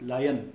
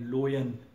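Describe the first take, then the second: First: The first vowel sounds like 'lie'. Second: The first vowel sounds like 'low'. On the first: The speaker calls it right. "This is लायन" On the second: The speaker calls it wrong. "इसको बहुत सारे बच्चे लोयन पढ़ते हैं ... this is wrong"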